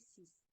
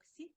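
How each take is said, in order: First: The final S sound is pronounced. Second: The final S sound is silent. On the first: The number stands on its own. "se prononce euh, avec S à la fin si elle s'utilise euh, à part" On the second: A noun starting with a consonant follows. "on dit sans S à la fin en nombre six"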